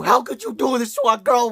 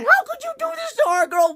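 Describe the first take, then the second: First: Mock betrayed scolding. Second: Very high, shrieking accusation; mock betrayed yell. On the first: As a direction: accuse her, less shrill this time. Scolding the character. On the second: Reviewer accusing Caitlyn of hurting their girl, very high shriek. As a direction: shriek the question at her in outrage. Scolding the character on screen.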